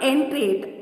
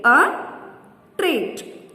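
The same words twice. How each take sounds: First: Said in the usual way. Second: "entreat" split as en, treat; long pause between the two syllables of "entreat". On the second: Shown as a demonstration. Teacher counting syllables for children, "entreat" broken in two. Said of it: "two syllables".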